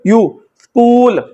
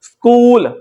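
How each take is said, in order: First: स्कूल slowed, long यू sound pulled out first; teacher stretching the long u for students; long u demo. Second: Said in the usual way. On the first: Shown as a demonstration. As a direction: isolate the यू then say स्कूल slowly. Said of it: "long यू pronounce करते हैं". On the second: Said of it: "मिसाल देखिएगा जैसे लफ्ज है स्कूल".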